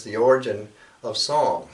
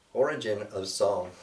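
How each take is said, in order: First: Said in the usual way. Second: Recited title. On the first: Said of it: "the title of this is". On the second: Shown as a demonstration. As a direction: announce the poem's title with weight. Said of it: "So I'll begin with that".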